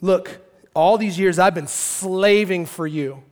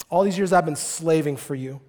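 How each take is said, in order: First: "slaving" drawn out with force; stress on slaving. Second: Said in the usual way. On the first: Acted. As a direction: stretch "slaving" slowly, as a bitter grievance. Brother's complaint, then repeated evenly.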